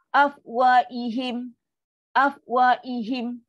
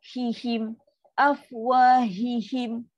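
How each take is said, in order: First: "afwaihim" drawn out slowly with the h dropped; weak ha lost. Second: "afwahihim" slow, with the h of "hihim" pushed; pressed ha. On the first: Teacher shows the wrong reading without the ha. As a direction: stretch "afwaihim" slowly and lose the h. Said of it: "Dia bunyi ihim, bukan hihim". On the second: Teacher shows the correct reading with a pressed ha. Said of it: "Kena tekan sikit". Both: Shown as a demonstration.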